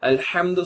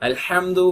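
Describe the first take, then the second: No difference in how they are said.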